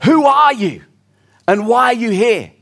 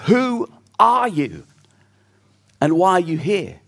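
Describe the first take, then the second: First: Sharp, louder challenge from a guard; a Roman guard calling out to a stranger; sentry calling out. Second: Reflective question. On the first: Acted. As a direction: call it out like a sentry on watch. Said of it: "he hears a voice calling out". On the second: Shown as a demonstration. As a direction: put the big life question to the congregation. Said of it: "those are the biggest questions in life".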